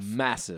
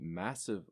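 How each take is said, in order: First: The word is said with strong emphasis. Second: The word is said with little emphasis. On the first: The speaker calls it right. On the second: The speaker calls it wrong.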